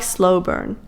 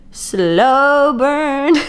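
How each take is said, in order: First: Said in the usual way. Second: "slow burn" stretched out very slowly; emphatic SLOW BURN. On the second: Real, not acted. Reader stressing to viewers how gradual the romance is, "slow burn" drawn out. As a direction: drag out both words of "slow burn" for emphasis. Repeats it for emphasis after "I'm talking.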